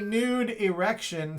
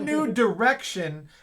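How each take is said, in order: First: The d sound ends the first word. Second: The d sound begins the second word. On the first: A hidden rude joke. "but a nude erection" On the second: A fresh course for the country. "not new direction"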